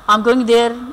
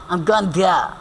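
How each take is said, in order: First: It is said the Indian-English way. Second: It is said the British, BBC-news way.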